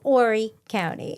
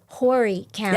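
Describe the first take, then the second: First: The initial H sound is silent. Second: The initial H sound is pronounced. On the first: The speaker calls it right. "You don't" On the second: The speaker calls it wrong. "I pronounced the H"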